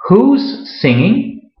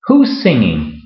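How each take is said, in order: First: Slow, careful, higher question with rising end; slow model question. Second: Said in the usual way. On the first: Shown as a demonstration. Teacher modelling the contraction for a Spanish-speaking learner, slow and clear. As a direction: say it slowly so the learner hears the contraction. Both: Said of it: "se puede contraer".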